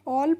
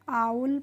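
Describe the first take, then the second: First: The vowel is a plain 'aw' sound. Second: The vowel glides like 'ow'. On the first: The speaker calls it wrong. "इसको ऑल नहीं पढ़ते हैं" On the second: The speaker calls it right. "आउल पढ़ते हैं"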